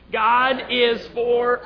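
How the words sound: The stress falls on the word 'us'. "And then the last time, us"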